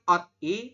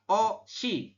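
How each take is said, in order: First: A final t sound ends the first syllable. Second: A sh sound starts the second syllable. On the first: The speaker calls it wrong. "Harusnya kan ot i" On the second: The speaker calls it right. "tapi dibacanya adalah o shi"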